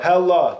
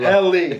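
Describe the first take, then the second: First: The name ends with an 'ah' sound. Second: The name ends with an 'ee' sound. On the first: This is how the brand itself says it. The speaker calls it right. "we're not mispronouncing it" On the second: This is how everyone assumed it was said. The speaker calls it wrong. "We all thought it was Helly"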